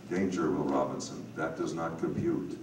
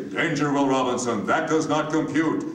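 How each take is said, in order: First: A slightly lower, smooth, cultured read with little colour on the words; a low-key, Hal-like computer voice, lightly done; Scourby-style narrator. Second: Higher, louder, rigid machine voice on each word; stiff mechanical robot. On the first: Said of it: "I'm doing my best Scourby imitation". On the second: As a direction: clip every word out like a machine. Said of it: "mechanical, stiff, robotian manner". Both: Retold or imitated.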